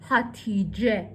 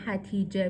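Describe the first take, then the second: First: The first vowel is an open 'ah' sound. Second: The first vowel is a front 'ae' sound. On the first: The speaker calls it right. "میگه هاتیجه" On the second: The speaker calls it wrong. "اینجا نمیگه هتیجه"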